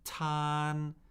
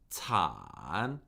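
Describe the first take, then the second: First: The pitch stays high and level. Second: The pitch dips low then rises.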